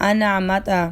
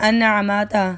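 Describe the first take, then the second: Both takes have the same delivery.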